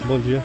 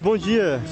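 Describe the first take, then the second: First: It sounds gloomy and flat. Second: It sounds cheerful and lively.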